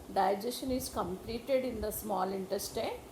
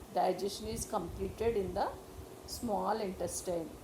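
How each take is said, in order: No difference in how they are said.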